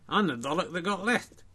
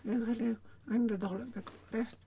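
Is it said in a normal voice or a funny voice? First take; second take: normal voice; funny voice. First: It is said in a normal voice. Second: It is said in a put-on funny voice.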